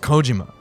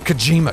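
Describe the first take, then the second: First: The syllables are said with fairly even stress. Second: The middle syllable is stressed with a sharp jolt. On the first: The speaker calls it right. "It's Kojima" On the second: The speaker calls it wrong. "a cattle prod stabbed in my back in the middle of the word"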